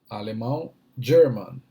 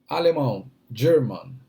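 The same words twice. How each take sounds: No difference in how they are said.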